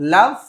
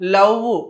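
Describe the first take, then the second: First: The final v has teeth on the lower lip. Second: The final v lacks teeth-on-lower-lip contact. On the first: The speaker calls it right. "కింది పెదవిని పై పంటితో పట్టుకుని చదవాలి" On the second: The speaker calls it wrong. "అలా కాదు"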